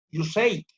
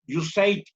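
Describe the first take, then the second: First: "You Say It" with a falling end, Spanish accent; "You Say It" settled down like a statement, Spanish accent; Spanish-accented English. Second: "You Say It" with a rising end, Spanish accent; "You Say It" read like a question, Spanish accent; Spanish-accented English. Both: Shown as a demonstration. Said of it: "perdón mi pronunciación del inglés".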